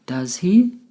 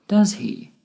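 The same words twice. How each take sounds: First: "Does he?" climbing in pitch; rising intonation. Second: "Does he?" dropping in pitch; falling intonation. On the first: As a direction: say "Does he?" rising, as if not sure. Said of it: "My voice went up at the end". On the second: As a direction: say "Does he?" going down, sure of the answer. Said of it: "My voice went down at the end with". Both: Shown as a demonstration.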